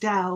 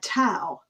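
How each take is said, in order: First: The word begins with a D sound. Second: The word begins with a T sound. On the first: "it's really pronounced Dow, like the Dow Jones, D O W" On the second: "they typically say in America"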